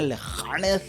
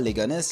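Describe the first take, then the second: First: The name is said with the accent. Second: The name is said without the accent. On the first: The speaker calls it right. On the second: The speaker calls it wrong.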